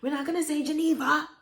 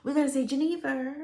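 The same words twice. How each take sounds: First: High, quick mock refusal, GENEVA ending in an open "ah"; stepmother correcting pronunciation. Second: High, proper correction, GENEVA ending in "ver"; stepmother's plain English. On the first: Stepmother rejecting a name's pronunciation, GENEVA ending "vah". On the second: Retold or imitated. Stepmother prescribing plain English, GENEVA ending "ver". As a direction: say GENEVA with a sounded final r, pitched up. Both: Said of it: "she would speak very plain English".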